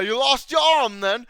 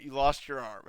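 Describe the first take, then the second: First: Loud, high-pitched comic knight; hammed-up sketch-comedy taunt; Monty Python impression. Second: Said in the usual way. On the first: Quoting that one scene from Monty Python, hammed-up knight. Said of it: "Monty Python". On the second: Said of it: "It's like that one scene from".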